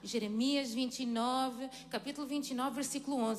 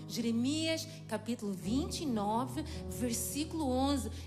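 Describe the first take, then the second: First: It is said at normal, quicker speed. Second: It is said slowly and deliberately.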